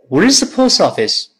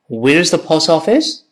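First: The voice falls at the end. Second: The voice rises at the end. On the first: The speaker calls it right. "降调，再来一遍" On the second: The speaker calls it wrong. "不要读成"

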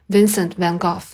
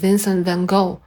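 First: The name is said with a British pronunciation. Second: The name is said with an American pronunciation. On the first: "我用的是音音，就是Van Gogh" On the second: "但是美音呢他也读作"

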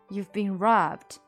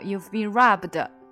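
First: The final b is very light and quick. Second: The final b is released as a full syllable. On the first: The speaker calls it right. "都是非常轻的而且非常快速的robbed" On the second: The speaker calls it wrong. "你不能说出来变成but 那就不行了，它就会变成you've been robbed，那就不好听了"

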